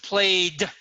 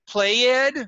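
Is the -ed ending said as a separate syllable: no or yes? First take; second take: no; yes. First: The -ed ending is a single d sound. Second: The -ed ending is said as its own syllable. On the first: The speaker calls it right. "played with a D" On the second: The speaker calls it wrong.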